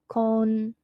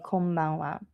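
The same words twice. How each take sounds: First: Louder, higher "Konbanwa" in separate syllables. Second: Said in the usual way. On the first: Shown as a demonstration. Teacher breaks down word for learners.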